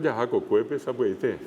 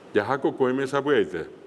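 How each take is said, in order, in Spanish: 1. La terminación después de la segunda palabra empieza con p. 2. La terminación después de la segunda palabra empieza con m.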